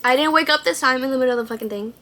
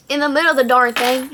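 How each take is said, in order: First: Said in the usual way. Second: Louder, quicker Texas twang; Texas accent. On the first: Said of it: "Oops, sorry". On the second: Real, not acted. Correcting a swear word, strong Texas accent. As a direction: lean hard into a Texas accent. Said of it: "That Texas accent goes crazy".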